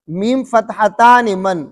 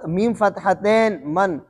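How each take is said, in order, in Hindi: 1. दूसरा शब्द -tani पर खत्म होता है, लंबा a। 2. दूसरा शब्द -tain पर खत्म होता है, आखिर में कोई स्वर नहीं। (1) "कतर में इसको पढ़ते थे" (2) "मजहूल अदा करना शुरू कर दिया है"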